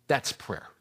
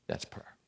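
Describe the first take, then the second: First: Said in the usual way. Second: Hushed repeat. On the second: Shown as a demonstration.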